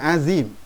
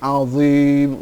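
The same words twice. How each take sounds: First: The z sound is plain and light. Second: The z sound is emphatic and heavy. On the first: The speaker calls it wrong. "Bukan azim" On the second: The speaker calls it right. "huruf dha ... Tapi azim"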